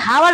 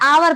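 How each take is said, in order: First: The word starts with an h sound. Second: The word starts with a vowel sound. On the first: The speaker calls it wrong. "अब इसे हम कभी हावर नहीं पढ़ते हैं" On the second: The speaker calls it right. "इसे हमेशा आवर पढ़ा जाता है"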